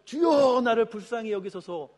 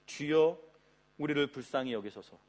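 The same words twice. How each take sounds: First: Loud beggar's plea. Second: Said in the usual way. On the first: Acted. Blind beggar calling to Jesus for mercy, loud plea. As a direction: call out high and loud, easing off after the first word. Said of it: "볼륨감 있게 한 거겠죠". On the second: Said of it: "여러분, 이 멘트가 뭐겠습니까? 거룩한 멘트가".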